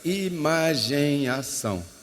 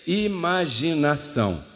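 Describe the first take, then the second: First: The word is split into two parts. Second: The word is said as one unit.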